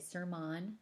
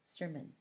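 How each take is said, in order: First: The last syllable has a full, clearly enunciated vowel. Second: The last syllable is a mushy, reduced schwa. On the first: The speaker calls it wrong. "We don't say sermon" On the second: The speaker calls it right. "we say sermon"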